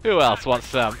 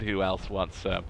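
First: Bold taunt. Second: Softer muttered challenge; low-key who else wants some; quiet taunt. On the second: Gamer taunting enemies, quiet. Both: Real, not acted.

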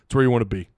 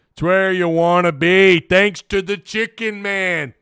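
First: Said in the usual way. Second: Higher, slow, drawn-out slogan delivery; put-on slogan voice. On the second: Streamer echoes a slogan about Central Arkansas, hammed-up drawn-out voice. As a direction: ham it up like a catchphrase, stretching the words.

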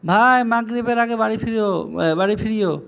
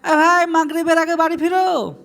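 First: Near-usual pitch, conversational reminder; phone-call request. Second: Calling to a friend. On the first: Asking someone on the phone to come home before Maghrib, conversational. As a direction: speak as if on the phone to a friend. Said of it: "কাউকে ফোনে কথা বলছেন তো বলেন". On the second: Telling a friend to return before Maghrib, calling out. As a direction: holler to a mate to get home. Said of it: "আপনি আপনার বন্ধুকে বলতে পারেন". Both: Shown as a demonstration.

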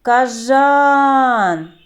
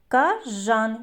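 First: Кажан with жан loud and high; stress on the second syllable. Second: Said in the usual way. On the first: Shown as a demonstration. Teacher shows pupils where the stress falls, loud on жан. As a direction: hit жан hard in Кажан. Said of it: "на який склад падає наголос". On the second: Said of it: "Який перший звук ми чуємо?".

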